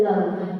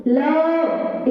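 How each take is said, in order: First: Said in the usual way. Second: LOVE drawn out and held; mispronounced love. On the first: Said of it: "it is love". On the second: Shown as a demonstration. Teacher showing how students misstress love, dragged-out vowel. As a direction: stretch the vowel in LOVE too long. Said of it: "It cannot be, it is love".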